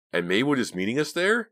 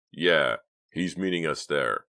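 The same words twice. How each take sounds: First: High, louder question rising on "there". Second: Slow, falling statement ending on "there"; confirming answer. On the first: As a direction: ask it in doubt, lifting "there" right up. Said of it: "Mickey asked". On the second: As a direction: confirm it slowly, "Yeah" firm, "there" falling. Answer confirming the question just asked. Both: A narrator's reading.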